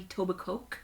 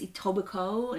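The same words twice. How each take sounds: First: The final K sound is pronounced. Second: The final K sound is silent.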